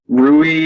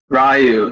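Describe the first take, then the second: First: The name is said like 'Rui'. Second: The name is said like 'Ryu'. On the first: The speaker calls it wrong. "I always pronounce his name wrong" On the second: The speaker calls it right. "Thank you"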